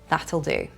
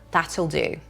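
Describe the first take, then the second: The two takes are said the same way.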